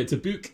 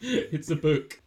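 First: "book" with a long oo, like "buke"; imitated northern long vowel on "book"; Geordie "book". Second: Said in the usual way. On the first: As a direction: stretch "book" into a Geordie "boook". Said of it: "book that come out quite Geordie".

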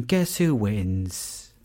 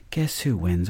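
First: Slow, drawn-out teasing question; teasing drawl. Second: Said in the usual way. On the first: Shown as a demonstration. Storyteller teasing listeners, slow drawn-out question. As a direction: stretch it out to tease.

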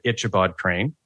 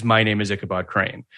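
First: Ichabod said with "ch" as in "itch"; mispronounced Ichabod. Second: Said in the usual way. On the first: Retold or imitated. Showrunner mimicking auditioning actors, Ichabod mispronounced as "Itch-abod". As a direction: say the start of Ichabod like "itch", not "ick". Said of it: "how many actors said". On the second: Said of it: "the very first line is".

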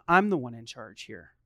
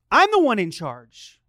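First: Low, controlled parental firmness; calm authority. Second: Loud, insistent dad; acted parental outburst, punched from the start; forceful authority. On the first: Acted. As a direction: state it low and evenly. Dad asserting authority, first take. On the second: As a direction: raise your voice to claim command. Dad asserting authority, forceful take.

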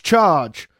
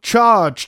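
First: Slightly raised repeat, less forceful; fading echo of the charge. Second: Much higher, louder battle roar; roared charge. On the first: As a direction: let the second charge fall back toward speech. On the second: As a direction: roar it to set the line running. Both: Retold or imitated. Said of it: "they roared".

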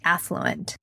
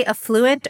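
First: Affluent said AFF-loo-ent; affluent, first-syllable stress. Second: Affluent said uh-FLOO-ent; affluent, second-syllable stress. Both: Shown as a demonstration. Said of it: "or do you say affluent".

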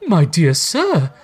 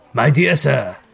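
First: High, slow, wondering character voice; overwhelmed gentleman. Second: Lightly voiced Scrooge hailing someone; a mildly emphatic, friendly greeting; eager Scrooge. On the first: Gentleman thanking Scrooge, overwhelmed. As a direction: draw it out, overcome with gratitude. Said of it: "said the other". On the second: Scrooge hailing the old gentleman, lightly eager. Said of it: "said Scrooge". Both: A narrator's reading.

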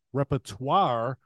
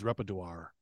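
First: Repertoire said slowly as "reper-twar", each part spelled out; slow down and fix repertoire properly; careful correction. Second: Repertoire slurred as "reper-doo-ar", trailing off low; fumbled pronunciation. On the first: Shown as a demonstration. Correcting his own misread word, slow careful repertoire. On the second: Real, not acted. Reading a fan's tweet aloud, tripping over repertoire. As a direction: stumble over repertoire, muttered.

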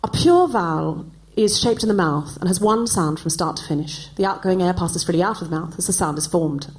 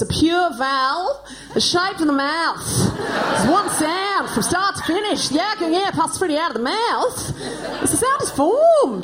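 First: Carefully enunciated British elocution recital; elocution-lesson English. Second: Higher, slow, hammed-up Australian vowels; broad Australian accent. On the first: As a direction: recite it in pure, proper British vowels. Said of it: "this is what I learnt to say". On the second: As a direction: recite the elocution drill in thick childish Australian. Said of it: "What I probably said was". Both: Shown as a demonstration.

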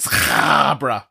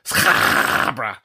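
First: "Scarborough" drawn out with a throaty scrape on the first syllable; mock-ugly, slow "Scarborough" from the back of the throat; guttural Scarborough. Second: "Scarborough" stretched very long on a lower, rasping throat scrape; hammed-up, low, long throaty "Scarborough"; exaggerated guttural Scarborough. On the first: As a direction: scrape and stretch the start of "Scarborough". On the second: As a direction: hawk up the start of "Scarborough" and drag it out. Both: Shown as a demonstration. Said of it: "as you can hear from the sound of it".

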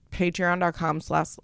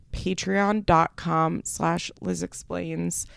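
First: Said in the usual way. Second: Spelled out slowly. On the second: Shown as a demonstration.

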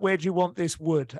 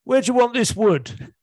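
First: Said in the usual way. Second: Loud, high, baffled punchline delivery; the lost driver asking where to drop the wood, shouting it out. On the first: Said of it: "something lovely about". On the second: Acted.

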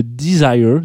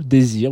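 First: "desire" said the English way, di-ZAI-er; a quick English-accented "desire"; English pronunciation. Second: "désir" said the French way, day-ZEER; French pronunciation. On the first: Radio host tries the English name first, lightly English-accented. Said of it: "mon accent anglais, euh, vaut ce qu'il vaut". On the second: Radio host switches to the French name, plain French. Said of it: "Moi, je dirais désir". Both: Shown as a demonstration.

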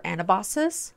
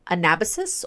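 First: Anabasis as an-uh-BAH-sis; stress on third syllable. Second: Anabasis as uh-NAB-uh-sis; stress on second syllable. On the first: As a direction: say Anabasis with the beat on BA. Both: Shown as a demonstration. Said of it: "depending on your pronunciation".

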